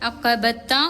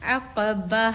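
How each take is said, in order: First: The word ends with a full 'ta' syllable. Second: The word ends with a soft 'h' sound. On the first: The word is read as joined to what follows. "അത് നമ്മൾ അഖബത്ത എന്നാണ് ഇപ്പോൾ നമ്മളിതിൽ കാണുന്ന ഇത്" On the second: The reader is stopping at this word. "വഖഫ് ചെയ്യുമ്പോൾ ... ഒരു ഹാൻഡ് സൗണ്ടാണ് പുറത്തേക്ക് വരേണ്ടത്"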